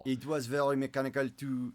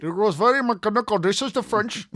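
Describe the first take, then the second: First: Careful, lightly French-accented English; attempted French accent. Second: High, loud French accent gone Indian; terrible Indian accent. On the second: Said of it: "a terrible Indian accent". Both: Shown as a demonstration.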